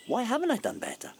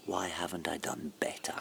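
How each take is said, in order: First: The question cried out much higher, stress on haven't; anguished cry. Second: Whispered, softer, to himself; despairing whisper. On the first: Man crying out to her about his wasted life. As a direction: let the same question burst out high in anguish. Outburst after fearing death. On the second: Man alone asking himself in a hushed whisper. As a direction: breathe the question out in quiet despair. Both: Acted.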